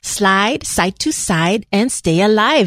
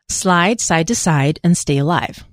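First: It is said in a put-on chola voice. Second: It is said in a plain voice.

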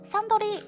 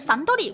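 First: The pitch stays level, then falls, Japanese style. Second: The pitch rises mid-word, English style. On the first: The speaker calls it right. "是Suntory 威士忌" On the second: The speaker calls it wrong. "不是Suntory 威士忌"

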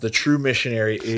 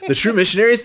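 First: The voice is flat and low in energy. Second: The voice is lively and full of excitement. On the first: The speaker calls it wrong. "You sound like the Eeyore" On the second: The speaker calls it right. "now I sound like something that was produced"

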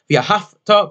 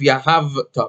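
First: The middle consonant sounds like f. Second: The middle consonant sounds like v. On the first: The speaker calls it wrong. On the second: The speaker calls it right.

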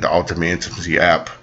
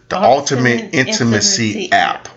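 First: The phrase is said quickly. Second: The phrase is said more slowly. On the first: The speaker calls it wrong. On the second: The speaker calls it right.

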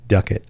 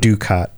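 First: The first vowel is a short 'uh' sound. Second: The first vowel is a long 'you' sound. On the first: The speaker calls it right. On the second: The speaker calls it wrong.

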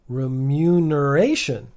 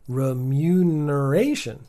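The two takes are said the same way.

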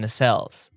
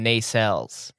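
First: The word is stressed in the ordinary way. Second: The word is stressed in an odd way. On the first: The speaker calls it right. "like they're normally pronounced" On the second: The speaker calls it wrong. "He just emphasized it in such a weird way"

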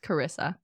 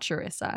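First: The name begins with a hard K sound. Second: The name begins with a CH sound. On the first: The speaker calls it right. "but it's pronounced Carissa" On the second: The speaker calls it wrong. "It's not Charissa"

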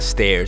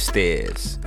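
First: The R sound is clearly pronounced. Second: The R sound is dropped. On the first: The speaker calls it wrong. "So it's not stairs" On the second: The speaker calls it right. "We take off the R's"

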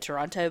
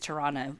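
First: The second t is pronounced. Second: The second t is dropped. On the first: The speaker calls it wrong. "I would have said Toronto because I suck" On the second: The speaker calls it right. "I think it's Toronto"

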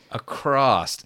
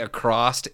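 First: The word ends with a plain S sound. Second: The word ends with an added T sound. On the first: The speaker calls it right. "with just the two S's" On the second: The speaker calls it wrong. "so many people say across"

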